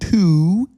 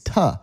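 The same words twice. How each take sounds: First: The vowel in 'to' is full and clear. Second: The vowel in 'to' is weak and reduced. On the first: The speaker calls it wrong. "It's not to" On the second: The speaker calls it right. "we don't want to put so much energy into saying a word"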